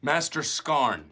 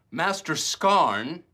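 First: Slow, weighty, drawn out; dramatic slow announcement. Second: Louder, higher, very slow; booming slow proclamation. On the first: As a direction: savour each word like a hero's title. Dwight booms his role name. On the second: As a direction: boom it out like a grand title. Dwight repeats even bigger. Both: Acted.

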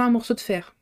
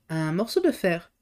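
First: Said in the usual way. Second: "Un morceau de fer" slow and questioning; puzzled question. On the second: A narrator's reading. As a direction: wonder aloud over "Un morceau de fer", drawn out. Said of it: "s'interrogeait Bellegarde".

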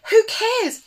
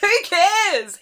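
First: High sung who cares; sung, belt it up with a lift; sung line. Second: Bright sung who cares; sung line. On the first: Sung again, lifted. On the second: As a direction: sing it out with a lift. Singing along to a track. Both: Pretend.

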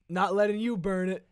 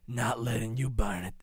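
First: Loud, high shouted catchphrase; S1 booms the villain's catchphrase. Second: Hint of a menacing villain; S0 tries the villain line in his own take. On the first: Acted. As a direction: belt it out like a cartoon villain. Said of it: "what was my catchphrase?". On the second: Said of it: "I was gonna talk like this the whole time".

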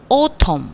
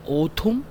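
First: "autumn" with a falling, settled end. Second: "autumn" softer, with a rising end; questioning "autumn". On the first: Teacher modelling a tricky word, "autumn" falling at the end. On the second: Teacher trying out a tricky word, "autumn" rising like a question. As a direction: ask "autumn" as if testing the sound. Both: Shown as a demonstration. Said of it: "영국식이라".

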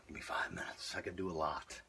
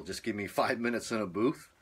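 First: Breathless whisper, no voice left; running out of air. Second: Said in the usual way. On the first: Real, not acted. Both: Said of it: "just let me catch my breath".

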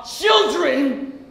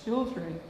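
First: Put-on "children" at full voice, drawn out; rising outrage. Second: Put-on much softer, lower, almost swallowed "Children"; stunned grief. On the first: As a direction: hurl "children" at her in accusation. Repeats word with outrage. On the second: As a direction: let "Children" drop to a hush. Repeats word in grief.

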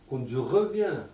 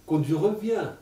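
Both takes have the same delivery.

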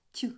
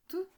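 First: "т" palatalized, like ть; short soft "т", as in тінь. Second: "т" as a hard isolated consonant; short hard "т" sound, as in ти. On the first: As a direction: sound out "т" softened, with a y-like release. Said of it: "робить його м'яким". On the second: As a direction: sound out "т" unsoftened, tongue not raised. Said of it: "м'який знак пом'якшує т". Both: Shown as a demonstration.

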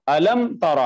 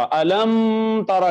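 First: Said in the usual way. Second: अलम के बाद रुककर फिर तरा; अलम पर ठहराव, फिर तरा अलग से; wrong pause after alam. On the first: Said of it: "यूं पढ़ेंगे". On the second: Shown as a demonstration. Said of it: "नहीं कहेंगे, रुकेंगे नहीं". (मीम पर रुककर गलत तरीके से)

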